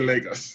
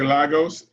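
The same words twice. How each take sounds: First: It is pronounced the way Nigerian speakers say it. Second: It is pronounced the way Portuguese speakers say it. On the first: "If you're Nigerian, you say Lagos" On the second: "If you're Portuguese, you say Lagos"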